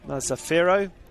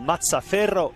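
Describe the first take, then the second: First: The name is said in an anglicized way. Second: The name is said in its native way. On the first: The speaker calls it wrong. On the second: The speaker calls it right.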